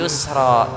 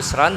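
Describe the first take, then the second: First: The word ends with a long a vowel. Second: The word ends with an n sound.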